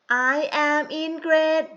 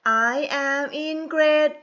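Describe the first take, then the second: No difference in how they are said.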